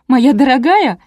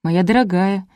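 First: High, loud bitter sarcasm; jealous sneer. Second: Said in the usual way. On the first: A narrator's reading. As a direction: throw the endearment out with jealous scorn. Jealous wife sneers at the phrase. (язвительно, с ревностью) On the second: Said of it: "не подумав как следует, перевела я".

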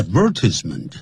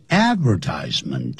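First: "advertisement" the British way, stressed on VER; British "advertisement", ad-VER-tis-ment with short i; British pronunciation. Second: "advertisement" the American way, with "tise" said like "ties"; American "advertisement", AD-ver-TIES-ment; American pronunciation. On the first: Teacher showing British usage, "advertisement" as ad-VER-tis-ment. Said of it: "英国人呢advertise". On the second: Teacher showing American usage, "advertisement" as AD-ver-TIES-ment. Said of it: "美国人通常念advertisement". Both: Shown as a demonstration.

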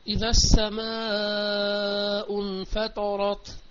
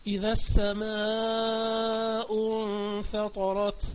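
First: Opening line of the verse recited; Quran recitation. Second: Quran recitation. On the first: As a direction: intone the verse clearly. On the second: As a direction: stretch the verse out prayerfully. Repeating the verse recitation. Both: Acted.

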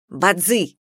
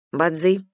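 First: Mildly barked name. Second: Said in the usual way. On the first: A narrator's reading. Captive waking a dozing companion, barking. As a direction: call the name sharply to rouse them. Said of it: "рявкнула она".

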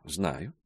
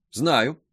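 First: First knowing word. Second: Second knowing word. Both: A narrator's reading. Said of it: "ответила мадемуазель Саже".

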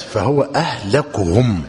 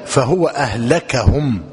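First: أهلكهم slowly, as "ahlakuhum" with u; damma on the kaf. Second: أهلكهم slowly, as "ahlakahum" with a; fatha on the kaf. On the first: Teacher repeats the hadith for dictation, أهلكهم as ahlakuhum. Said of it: "وأهلكهم بالضم". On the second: Teacher dictates the other narration, أهلكهم as ahlakahum. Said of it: "بفتح الكاف". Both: Shown as a demonstration.

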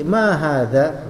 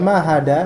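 First: Slow "hadza" with tongue between the teeth; correct dzal sound. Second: "hada" with a hard d in place of dz; tongue behind the teeth for the d in "hada"; wrong d sound. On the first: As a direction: draw out "ma hadza" with a th-like dz. ("hadza" pelan dengan bunyi dzal) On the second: ("hada" dengan bunyi dal, bukan dzal) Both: Shown as a demonstration. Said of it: "Hada salah".

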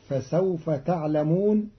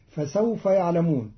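First: تعلمون opening with a t sound; Qalun reading. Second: Said in the usual way. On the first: Shown as a demonstration. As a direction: say تعلمون as "ta'lamūn", second person. (تعلمون بتاء الخطاب) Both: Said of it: "قرأ قالون كلمة يعلمون بتاء".

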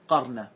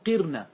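First: "قرن" said "QAR-na", a after the ق; fatha on the qaf. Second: "قرن" said "QIR-na", i after the ق; kasra on the qaf. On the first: Teacher listing permitted forms, "قرن" as qar-na. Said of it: "أن تفتح القاف". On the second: Teacher listing permitted forms, "قرن" as qir-na. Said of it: "كسر القاف". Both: Shown as a demonstration.

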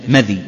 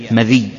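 First: مذي as "MADH-y", vowelless dhāl; yā' without doubling. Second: مذي as "ma-DHIYY", kasra on dhāl; kasra and doubled yā'. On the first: Teacher shows the first reading, undoubled yā' pronunciation. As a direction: keep the final yā' of مذي light. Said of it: "تخفيف الياء بدون تشديد". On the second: Teacher shows the second reading, doubled yā' pronunciation. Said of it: "وتشديد الياء". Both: Shown as a demonstration.

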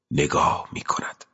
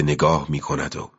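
First: Soft whispered repeat; hushed echo of the line. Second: Said in the usual way. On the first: A narrator's reading. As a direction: breathe the words out. Repeats the phrase, second whispered.

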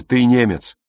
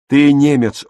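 First: Said in the usual way. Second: «Ты немец» with ТЫ hit loud and high; stress on ТЫ. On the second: A narrator's reading. Пауль настойчиво убеждает брата: громкое ударное «Ты». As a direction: drive the word «Ты» home loudly. Paul repeats his key argument.

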